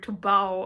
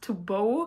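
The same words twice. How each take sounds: First: The vowel in 'bow' rhymes with 'cow'. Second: The vowel in 'bow' rhymes with 'go'. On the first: The speaker calls it right. "you say to bow, like before the concert" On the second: The speaker calls it wrong. "and not to bow"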